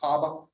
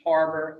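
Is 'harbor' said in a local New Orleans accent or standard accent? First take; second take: New Orleans; standard. First: It is said with a local New Orleans pronunciation. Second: It is said with a standard general pronunciation. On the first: The speaker calls it right. "colloquial pronunciations" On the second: The speaker calls it wrong. "it's not harbor"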